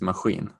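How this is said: It is said in a Gothenburg accent, further back. "with the Gothenburg accent, it is machine"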